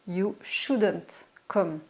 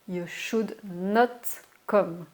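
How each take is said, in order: First: Should not is contracted into one word. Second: Should and not are said as two full words.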